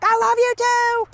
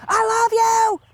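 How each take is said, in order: First: High, sustained mock holler; yelling back. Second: High, loud drawn-out call; yelling out the window. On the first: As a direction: call it back across the yard. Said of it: "And I'll yell back". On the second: Retold or imitated. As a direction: imitate a passer-by yelling affection. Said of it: "people just yell out the window".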